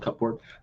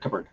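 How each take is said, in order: First: It is said letter by letter, as spelled. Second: It is said the usual way, not as spelled. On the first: "why is cupboard spelled like cupboard?" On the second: "why is it pronounced like cupboard?"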